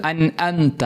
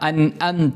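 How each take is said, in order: Both takes have the same delivery.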